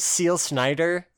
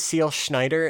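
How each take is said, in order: First: "Schneider" with a plain s at the start, like "Snyder"; mispronounced name. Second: "Schneider" starting on a clear sh; corrected pronunciation. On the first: Podcaster fumbling an anime attack name, mispronounced. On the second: Podcaster redoing the fumbled attack name, pronounced with sh. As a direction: say "Schneider" with sh before the n. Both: Real, not acted. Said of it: "I fucked that pronunciation up".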